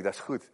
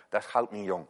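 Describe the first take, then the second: First: Said in the usual way. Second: "goud" in het Gronings uitgesproken als /xɑwt/; Gronings dialect. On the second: Shown as a demonstration. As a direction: een poging tot Gronings: "Dat is goud niet jong". (de dominee doet Gronings na voor de gemeente) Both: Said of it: "als ik dat al goed uitspreek".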